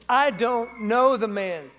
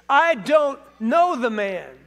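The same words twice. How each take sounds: First: Each word weighed, slow and louder; slow emphatic denial. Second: Louder, slow, swearing it; sworn denial. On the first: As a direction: deny him slowly with an oath. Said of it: "with an oath". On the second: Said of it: "he swore to them". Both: A narrator's reading.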